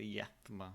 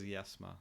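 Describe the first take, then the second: First: The middle sound is a 'th' sound. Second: The middle sound is an 's' sound. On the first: "they spell it as Yethma, like with a th" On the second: "but they pronounce it as Yesma"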